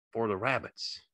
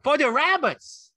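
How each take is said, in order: First: Said in the usual way. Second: Very high, drawn-out excited shout; Lenny's joyful shout. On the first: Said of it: "George repeated". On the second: A narrator's reading. Lenny thrilled about the rabbits, high shout. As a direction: shout it slowly with childlike glee. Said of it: "Lenny shouted".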